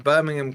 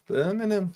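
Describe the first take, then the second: First: Said in the usual way. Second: Softer, teasing Brummie echo; Brummie accent. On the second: Acted. Commentator cheekily repeating the opposition's name for Carl, Brummie accent. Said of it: "Couldn't resist".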